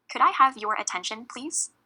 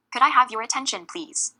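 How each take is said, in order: First: Rising question on "attention, please"; polite question. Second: Loud start, falling tone down to a firm "please"; firm statement. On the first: Chair asking the room for attention, polite question. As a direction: ask "Could I have your attention, please?" with the voice lifting at the end. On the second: Chair taking charge of the room, firm statement. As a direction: say "Could I have your attention, please?" as a statement, dropping on "please". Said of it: "You could also do this for the phrase". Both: Shown as a demonstration.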